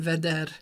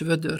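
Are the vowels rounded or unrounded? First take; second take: unrounded; rounded. First: The vowels are said with spread lips. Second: The vowels are said with rounded lips. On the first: It is the regional dialect form. "hanem veder" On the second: It is the standard form. "nincs vödör"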